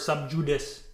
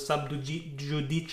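First: The term is pronounced in an English style. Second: The term is pronounced in a Latin style.

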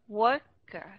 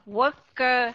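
First: The second syllable is light and reduced. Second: Both syllables are equally full and strong. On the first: The speaker calls it right. "thì cái mình đọc nhẹ đi một chút" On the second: The speaker calls it wrong. "mà đừng có học là worker, hai âm đều nhau"

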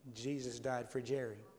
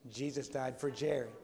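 First: It is said at normal volume. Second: It is said a little louder.

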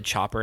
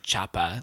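First: It is said in a plain American accent. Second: It is said in an Austrian-style accent with dropped r. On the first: "Every time I say chopper" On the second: "I want to say choppa"

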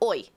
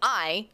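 First: The vowel is a rounded 'oy' sound. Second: The vowel is a plain long 'eye' sound. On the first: "you go oi" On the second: "instead of saying I"

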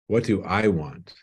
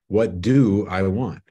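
First: The stress falls on the word 'I'. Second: The stress falls on the word 'do'.

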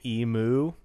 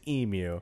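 First: The word is said the American way. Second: The word is said the Australian way. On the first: This is a later variant some people adopted. "some Americans started saying emu" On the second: This is the original pronunciation. "the original and the Australian pronunciation is emu"

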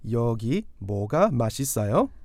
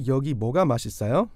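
First: It is said at a normal, slower pace. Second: It is said a little more quickly.

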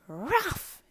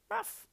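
First: The bark is loud and forceful. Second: The bark is small and quiet.

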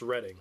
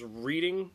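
First: The first vowel is a short 'e' sound. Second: The first vowel is a long 'ee' sound. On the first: It refers to the town. "if it's like the town, then it's pronounced Reading" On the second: It is read as the ordinary word. "I would see that as Reading"

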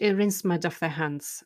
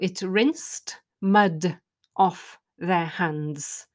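First: The phrase is said quickly, as in fast speech. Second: The phrase is said slowly and clearly.

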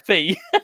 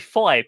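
First: The vowel sounds like 'ee'. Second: The vowel sounds like 'eye'. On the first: The speaker calls it right. "but it's actually Fee" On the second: The speaker calls it wrong. "I always say five"

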